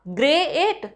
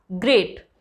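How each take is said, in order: First: "ग्रे एट" broken apart as ग्रे, then एट; split into two parts. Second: Said in the usual way. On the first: Shown as a demonstration. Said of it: "पहले आपने ग्रे फिर एट बोला". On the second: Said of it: "no, कैसे बोला?".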